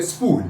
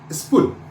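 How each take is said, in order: First: SPOOL said as "is pool", long oo; long vowel. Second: SPOOL said as "is pull", short lax u; short vowel. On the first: Teacher spelling P O O L, SPOOL with long vowel. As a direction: stretch the oo in SPOOL. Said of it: "not pronouncing the long word". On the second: Teacher spelling P U L L, SPOOL with short vowel. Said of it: "I am pronouncing the short word". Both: Shown as a demonstration.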